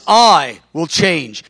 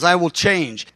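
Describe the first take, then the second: First: Slow, heavy weight on "I" in "I will change"; stress on I. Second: Said in the usual way. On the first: Retold or imitated. Preacher quoting the Lord, stressing "I" slowly. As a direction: lean hard on "I" as the Lord declaring it. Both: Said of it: "I understood the emphasis of "I".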